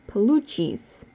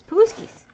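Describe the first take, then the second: First: The middle consonant sounds like 'ch'. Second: The middle consonant sounds like 'sk'. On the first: This is the name as locals say it. The speaker calls it right. "the proper way" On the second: This is the name as the family said it. The speaker calls it wrong. "that's what we called it growing up"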